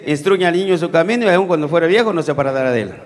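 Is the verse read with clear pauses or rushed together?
rushed. It is read quickly, with phrases run together. The meaning is harder to grasp. The speaker calls it wrong.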